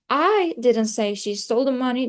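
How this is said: The word I carries the main stress. Someone else said it. "I is the most important part"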